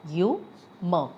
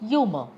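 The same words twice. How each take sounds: First: "Humor" broken in two, with a clear pause between syllables. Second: Said in the usual way. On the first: Shown as a demonstration. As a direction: say "Humor" slowly as hu, mor. Word split to show syllables.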